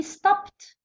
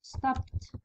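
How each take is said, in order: First: Stopped said with a crisp final t sound, /stapt/; stopped, ending clean on a t; model pronunciation. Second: Stopped whispered with a final t; whispered model word. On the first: Teacher modelling stopped to students, final t sounded. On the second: Teacher whispering stopped to students, soft final t. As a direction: breathe stopped out softly, ending on t. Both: Shown as a demonstration. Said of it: "راكو تشوفوا ت".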